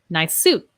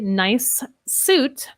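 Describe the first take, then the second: First: The two S sounds merge into one. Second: The two S sounds are said separately. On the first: The speaker calls it right. "let's link them" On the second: The speaker calls it wrong. "I would not say nice suit"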